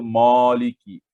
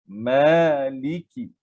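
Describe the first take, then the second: First: The first vowel of maliki is short. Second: The first vowel of maliki is long. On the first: The speaker calls it wrong. "Jangan kita baca maliki" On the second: The speaker calls it right. "Ma itu dibaca dua harakat"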